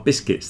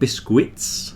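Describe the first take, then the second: First: No extra vowel sound follows the k. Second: An extra 'u' sound follows the k. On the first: The speaker calls it right. "Biscuits are biscuits" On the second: The speaker calls it wrong. "There's no U in there. Don't pronounce that U"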